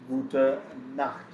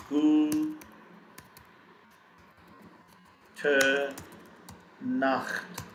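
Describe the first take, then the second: First: Said in the usual way. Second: Gute stretched with a long break, then Nacht; syllable-by-syllable pronunciation. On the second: Shown as a demonstration. Teacher showing learners how to pronounce it, slow syllables. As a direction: sound out Gute Nacht very slowly in pieces. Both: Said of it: "How do we pronounce it?".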